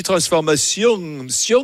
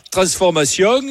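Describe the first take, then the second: First: Held-back southern French ending on "transformation", then "sion"; "transformation" with the southern French twang half hidden; shamefaced southern French accent. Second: Full southern French twang on the last syllable of "transformation"; "transformation" with a strong southern French ending; southern French accent. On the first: Host mimicking caller's shamefaced accent, slight southern French ending on "transformation". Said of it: "t'as l'accent honteux".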